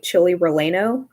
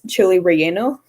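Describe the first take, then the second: First: The name is said with English-style pronunciation. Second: The name is said with Spanish pronunciation. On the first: The speaker calls it wrong. "he always says it like chili relleno" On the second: The speaker calls it right. "he just doesn't understand that it's chile relleno"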